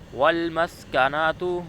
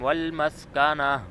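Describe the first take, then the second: First: The word ends with a t and a vowel. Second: The word ends with a silent h sound. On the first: The reciter continues without stopping. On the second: The reciter stops on this word.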